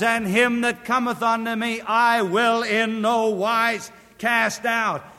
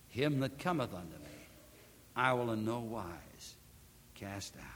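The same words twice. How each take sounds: First: High and loud, proclaimed to the congregation; preacher calling out the verse in full voice; ringing proclamation. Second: Preacher softly repeating the verse to the listeners; hushed repetition. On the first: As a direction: announce the promise from the pulpit. First proclaimed reading of the verse. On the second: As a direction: lower and soft, fading to a whisper on cast out. Verse repeated softly after pause. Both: Acted.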